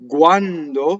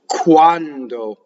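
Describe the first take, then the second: First: The k is soft, close to a g. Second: The k is breathy, in an American accent. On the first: The speaker calls it right. "Italian is closer to the voiced g" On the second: The speaker calls it wrong. "if I were to do it with a heavy American accent"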